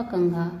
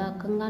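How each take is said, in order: First: Said in the usual way. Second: कंगा with unaspirated g; mispronounced. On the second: Shown as a demonstration. Teacher showing students an error, कंगा without aspiration. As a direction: say कंगा with no breath after g. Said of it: "नहीं होता".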